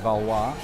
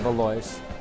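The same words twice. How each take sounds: First: The name is said with a French pronunciation. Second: The name is said with an English pronunciation. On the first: This is the original form that almost nobody uses. "the French uh, proper way to say it is Valois" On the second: This is how nearly everyone says it. "Everyone calls it Valois"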